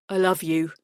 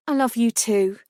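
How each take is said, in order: First: Tender lover voice. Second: Said in the usual way. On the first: Acted. Lucas, lower voice.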